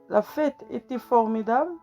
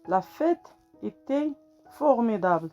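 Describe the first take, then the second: First: The voice rises at the end like a question. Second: The voice falls at the end like a statement. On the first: It asks whether the party was great. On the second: It states that the party was great.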